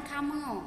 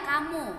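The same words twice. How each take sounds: First: "kamu" with the final u opened to o; mispronounced kamu. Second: Said in the usual way. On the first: Shown as a demonstration. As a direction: say "kamu" as kamo. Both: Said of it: "ya jangan kamu".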